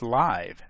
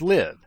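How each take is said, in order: First: It has a long vowel, rhyming with five. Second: It has a short vowel, rhyming with give. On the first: It means being alive, not recorded. "the correct pronunciation is live, as in alive" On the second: It is the opposite of dying. "I choose to pronounce the method spelled L I V E as live, since it makes sense to me to think of it as the opposite of die"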